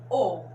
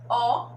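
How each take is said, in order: First: The vowel is said with a closed sound. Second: The vowel is said with an open sound. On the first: "camelô com o som fechado" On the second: "dominó com o som aberto"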